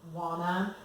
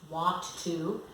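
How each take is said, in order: First: The words are blended into one reduced word. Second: Both words are said fully and separately.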